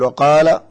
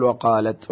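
First: "وقال" said louder with a rising end, no final t; louder demo. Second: "وقالت" said at normal level with the feminine "ت" sounded; plain demo. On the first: Sheikh contrasts the two verb forms for the caller, louder. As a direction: call out "وقال" as the first allowed form. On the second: Sheikh gives the alternative verb form, calmly. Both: Shown as a demonstration. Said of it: "يجوز أن تقول".

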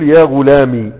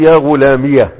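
First: يا غلامي with the final ي as a plain long i, no added vowel; silent final ya. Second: يا غلامية with the final ya voiced as -iya; ya with fatha. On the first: Teacher showing students the still ya, clearly pronounced. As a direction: end غلامي on a bare ee sound. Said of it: "بتسكين الايه؟ الياء". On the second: Teacher contrasting the opened ya for students, clearly pronounced. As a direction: add an open -ya after غلامي. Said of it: "بفتح الياء". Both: Shown as a demonstration.

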